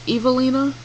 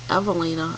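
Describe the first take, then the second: First: The name begins with a sound like 'evil'. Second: The name does not begin like 'evil'. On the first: The speaker calls it wrong. "I don't like it because it sounds like evil" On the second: The speaker calls it right. "I think it's kind of cute"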